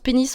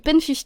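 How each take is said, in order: First: The title is run together as one word 'pénis'. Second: The number is read out as 'quinze'. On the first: The title is read as the hidden pun. "moi je la prononce Pénis" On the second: The title is read literally as written. "toi, alors tu prononces la série Pen quinze"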